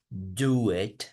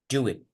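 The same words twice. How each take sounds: First: The two words are said separately. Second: The two words are joined smoothly together. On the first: The speaker calls it wrong. "En vez de decir" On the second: The speaker calls it right.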